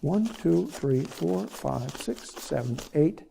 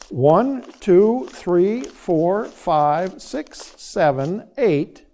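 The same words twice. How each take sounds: First: The counting is rushed and noticeably faster. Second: The counting is at a normal, slower pace.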